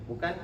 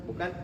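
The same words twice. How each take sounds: No difference in how they are said.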